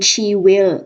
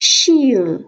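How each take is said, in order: First: It is said as two full separate words. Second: It is said as one short contraction.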